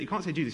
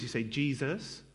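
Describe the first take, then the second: First: Said in the usual way. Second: "Jesus" said slowly and softly, rising at the end; a reverent, drawn-out "Jesus"; mock pious pronunciation. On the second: Mocking how Christians say "Jesus", slowed and softened.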